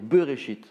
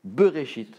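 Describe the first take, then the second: Both takes have the same delivery.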